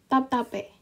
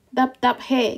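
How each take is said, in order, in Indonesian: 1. Bunyi p menggantikan h sebelum vokal. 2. Bunyi h ada sebelum vokal terakhir. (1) "Ini berubah menjadi P. Jadinya tap tape" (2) "Dap dap he gitu kan"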